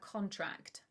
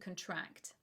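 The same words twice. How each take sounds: First: The stress is on the first syllable. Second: The stress is on the second syllable. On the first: It is the noun, an agreement. "not on the first, like in the noun" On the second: It is the verb, to catch an illness. "the stress is on the second syllable"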